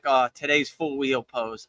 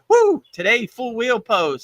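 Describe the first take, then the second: First: It sounds reluctant and unenthusiastic. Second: It sounds eager and excited.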